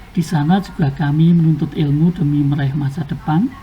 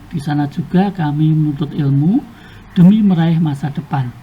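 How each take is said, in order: Both takes have the same delivery.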